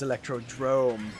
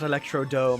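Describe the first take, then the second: First: There is an r sound after the d. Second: There is no r sound after the d. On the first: The speaker calls it right. "it is Electrodrome" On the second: The speaker calls it wrong. "it is not Electrodome"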